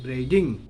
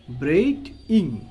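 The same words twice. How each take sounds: First: Said in the usual way. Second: ব্রেইডিং broken into braid and ing; split into syllables. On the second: Shown as a demonstration. Teacher showing students the syllables of ব্রেইডিং, split apart. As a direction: say ব্রেইডিং in two separate beats. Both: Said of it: "syllable ভাগ করে".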